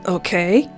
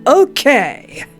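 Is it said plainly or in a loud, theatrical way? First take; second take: plainly; theatrical. First: It is said plainly, without exaggeration. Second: It is said loudly and theatrically.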